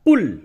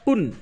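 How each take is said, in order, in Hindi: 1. n गायब हो जाता है, इसलिए अक्षर का अंत l से होता है। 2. अक्षर का अंत साफ़ n की आवाज़ से होता है। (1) "इदगाम कर दिया तो कैसे बोला? कुल, काफ को लाम से मिला दिया" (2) "काफ दो पेश क्या होता है? कुन"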